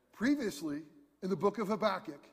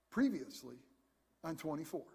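First: Said in the usual way. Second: Low, dramatic "previously on" announcer voice; TV recap announcer. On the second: Retold or imitated. Preacher mimicking the TV show opener for the congregation, low dramatic announcer. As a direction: intone it like a TV show's recap opener. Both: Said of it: "Remember how it always started?".

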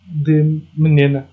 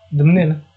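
First: Slow, drawn out de menina; slowly spelled out. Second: Said in the usual way. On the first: Shown as a demonstration. Host explains where [name] comes from, slow drawn-out menina. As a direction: stretch out menina to show the name.

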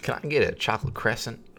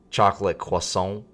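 First: "crescent" in place of French "croissant"; higher mock customer voice, saying "crescent" as KRESS-ent; mispronounced croissant. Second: "croissant" said the French way, kwah-sohn; sudden French accent. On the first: Customer ordering croissant without French accent, wrongly says "crescent". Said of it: "Sir, that's not how it's spelled". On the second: Retold or imitated. Southern customer ordering at drive-thru, sudden French "croissant". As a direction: switch into mock French on "croissant". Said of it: "And he just switched to, like, croissant".

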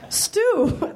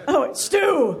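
First: High, shaky first try at a Scottish nanny; a quick, higher granny voice that misses; old woman voice. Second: Second take at the granny, a bit higher; retried old woman voice. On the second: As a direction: redo the nanny voice more settled. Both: Acted. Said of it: "these voices are gonna get right".

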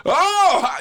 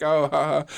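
First: Much higher, louder "oh!" of realization; building laugh. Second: Small, tentative acted "oh, ha, ha"; dawning laugh. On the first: Acted. Audience member finally getting the joke, big acted laugh. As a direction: burst out as the joke fully lands. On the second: Audience member starting to get the joke, mild acted laugh. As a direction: let the joke just start to land. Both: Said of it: "it takes a second and then it just builds into it".

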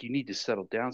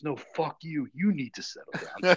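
First: Said in the usual way. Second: High, loud comeback; imitated angry retort. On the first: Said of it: "the medic is like". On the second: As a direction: imitate the boss throwing it back, stressing YOU. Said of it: "So he told the medic".

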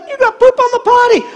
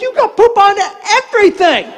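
First: Put-on very high little-girl tantrum voice; high mock kid protest; accusing granddaughter. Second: High, mock-hysterical retort; pitched-up indignant comeback; exasperated grandpa. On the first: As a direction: imitate a child scolding Grandpa. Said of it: "and then she's like". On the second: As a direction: shout back at a child in comic exasperation, pause before last word. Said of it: "I'm like".

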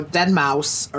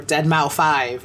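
First: "deadmau five" said like "dead mouse"; usual name pronunciation. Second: "deadmau five" read as dead-mow-five; literal name reading. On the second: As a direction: say "deadmau five" slowly, ending in the number five. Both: Shown as a demonstration. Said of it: "if you read his name correctly".

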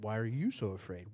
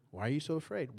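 First: "you" pushed out as the key word; Why are "you" so afraid with the stress on you. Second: "afraid" leaned on at the end of the question; weight the last word "afraid"; Why are you so "afraid" with the stress on afraid. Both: Shown as a demonstration. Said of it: "You can emphasize different parts of it".

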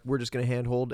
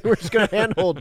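First: Said in the usual way. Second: Louder, higher mock filmmaker; hammed-up carefree crew. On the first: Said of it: "they're like". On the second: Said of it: "it's like their tripod broke".

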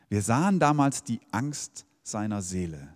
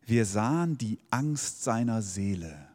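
First: Said in the usual way. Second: Slow, solemn quotation from Luther; solemn Luther Bible reading, slowed; Luther's wording. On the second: Shown as a demonstration. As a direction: read it slowly like an old Bible verse. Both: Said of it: "Bei Luther steht es so".

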